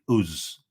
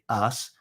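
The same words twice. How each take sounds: First: It is said in a Northern English accent. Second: It is said in standard received pronunciation.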